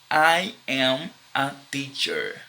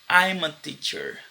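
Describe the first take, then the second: First: I am is said as two full words. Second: I am is shortened into one syllable.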